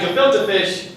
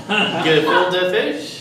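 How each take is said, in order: First: Said in the usual way. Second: "Gefilte fish" drawn out very slowly, rising as a question; questioning punchline. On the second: Acted. Comic delivers the taxidermist joke's punchline, questioning and drawn out. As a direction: stretch "Gefilte fish" into a slow, hesitant question.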